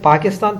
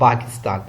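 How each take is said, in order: First: The word starts with a p sound. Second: The word starts with a b sound. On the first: This is how the speaker's own community says it. "हम कहते हैं" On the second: This is how Gulf Arabic speakers say it. "वो पा नहीं बोलते तो वो बा बोलते हैं"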